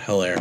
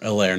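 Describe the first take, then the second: First: The name starts with an H sound. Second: The name starts without an H sound. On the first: The speaker calls it wrong. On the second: The speaker calls it right.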